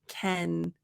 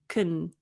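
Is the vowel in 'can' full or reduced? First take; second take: full; reduced. First: The word has a full, open vowel. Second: The word has a short, reduced vowel. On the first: "when you're studying this" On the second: "we reduce it to kun, so your mouth doesn't open as much"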